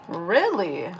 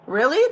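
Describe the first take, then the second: First: "Really?" dropped low and soft, unimpressed; deadpan "Really?". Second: "Really?" with a bright rising pitch; asking "Really?" in mild surprise; surprised "Really?". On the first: Reacting to smudged lens comment, dry deadpan. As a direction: flatly mutter "Really?" under her breath. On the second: Viewer comment about smudged lens, surprised question. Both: Real, not acted.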